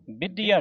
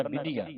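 First: ਵਿਧੀਆ said tight, middle consonant doubled; the mistaken ਵਿਧੀਆ, "bid-diya"; hard misreading. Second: ਵਿਧੀਆ said softly with a single light consonant; light, quieter ਵਿਧੀਆ, no doubling; soft, loose pronunciation. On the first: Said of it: "ਵਿਧੀਆ ਨਹੀਂ ਕਹਿਣਾ". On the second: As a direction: let ਵਿਧੀਆ go loose, "bidiya". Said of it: "ਪੋਲਾ ਸ਼ਬਦ ਪੜ੍ਹਨਾ". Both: Shown as a demonstration.

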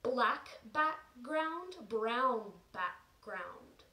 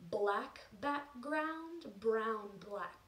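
First: Slow, careful "Black background, brown background". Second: "brown black" slipped in for "brown background"; tongue twister flub. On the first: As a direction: say "brown background" slowly and clearly. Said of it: "Even I said it wrong there". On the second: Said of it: "Ooh, whoops. Even I said it wrong". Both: Shown as a demonstration.

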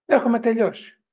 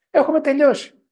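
First: Said in the usual way. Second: Higher and louder, hammering the verdict; emphatic warning. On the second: Real, not acted. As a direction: strike έχουμε hard and let τελειώσει fall.

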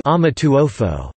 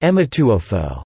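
First: "Amituofo" opening on an A sound, drawn out slowly; Chinese pronunciation. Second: "Emituofo" opening on an E sound instead of A; variant Chinese pronunciation. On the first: Narrator giving the Chinese name, "Amituofo" with initial A. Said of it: "In Chinese". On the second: Narrator showing the alternative pronunciation, "Emituofo" with initial E. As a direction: say "Emituofo", starting with E. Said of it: "sometimes pronounced". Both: Shown as a demonstration.

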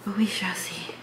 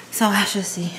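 First: Whispered aside to herself. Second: Said in the usual way. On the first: Real, not acted. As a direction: breathe it out as a whisper. Drunk, musing about the club.

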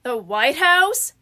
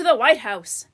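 First: "The White House?" drawn out with a rising end; slow, rising "The White House?"; questioning echo. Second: "the White House" as a statement, falling at the end; "the White House" said as settled fact; plain statement. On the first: Echoes it as a surprised question. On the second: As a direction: state "the White House" firmly, pitch dropping. Statement, later echoed as question. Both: A narrator's reading.

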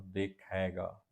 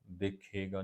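First: ਦੇਖੇਗਾ said slowly with the proper vowel; right reading. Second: ਦੇਖੇਗਾ said quickly the common wrong way; the wrong way to read ਦੇਖੇਗਾ. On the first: Teacher corrects a common misreading of ਦੇਖੇਗਾ. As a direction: draw out ਦੇਖੇਗਾ carefully. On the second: Teacher shows the misreading of ਦੇਖੇਗਾ. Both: Shown as a demonstration. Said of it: "ਦੇਖੇਗਾ ਨਹੀਂ".

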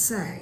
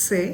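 First: "say" with a full ay glide; correct pronunciation. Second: "Say" with a short unglided e; wrong pronunciation. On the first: Teacher correcting students' word, correct pronunciation. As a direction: say "say" gliding from e into i. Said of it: "and that's wrong, is". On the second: Teacher showing students the error, mispronounced. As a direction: say "Say" with a pure Bangla e. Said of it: "and that's wrong". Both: Shown as a demonstration.

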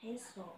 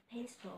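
First: Said in the usual way. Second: Pencil said with a clear L at the end; final L sounded. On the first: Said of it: "Pencil. (Google reads it)". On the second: Shown as a demonstration. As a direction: close pencil on a distinct L. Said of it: "Có L ở cuối nữa".

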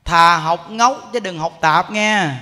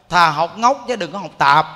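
First: Slow, loud, with ngốc drawn out long; slow emphatic repeat. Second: Ngốc dwelt on and loud; emphatic saying. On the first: Monk repeating the saying slowly so listeners remember. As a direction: spell out each word, leaning on ngốc. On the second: Monk quoting the saying to the faithful, emphatic. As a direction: stress ngốc, then tạp. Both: Shown as a demonstration. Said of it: "Nghe nè".

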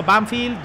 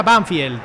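First: "Banfield" with "-field" as "fild"; pronunciation demo. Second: "Banfield" drawn out with "-field" as "fyeld"; pronunciation demo. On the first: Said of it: "Otros no me habéis dicho". ("Banfield" pronunciado "banfild") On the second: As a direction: say "Banfield" slowly with a Spanish "ie" glide. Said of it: "Se pronuncia". ("Banfield" con diptongo "ie") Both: Shown as a demonstration.

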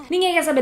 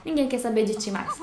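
First: Louder, higher punch on "Ninguém"; emphatic repeat. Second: Said in the usual way. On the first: Shown as a demonstration. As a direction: drive the point home on "Ninguém". (repetindo mais alto, ênfase em "Ninguém")

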